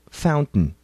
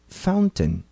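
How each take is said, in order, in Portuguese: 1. O T do meio é um glottal stop. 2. O T do meio é um T claro, com soltura. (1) "No inglês do dia a dia, a pronunciamos como fountain" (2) "No inglês padrão, ela é pronunciada com T forte"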